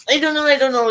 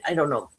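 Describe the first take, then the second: First: Higher, louder, I don't know twice; exasperated. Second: Said in the usual way. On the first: Real, not acted. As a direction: throw up your hands, flustered. Undecided, repeating it.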